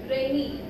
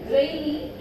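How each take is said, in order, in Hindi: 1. बलाघात दूसरे शब्दांश पर है। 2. बलाघात पहले शब्दांश पर है। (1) "not rainy" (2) "So here the word rainy"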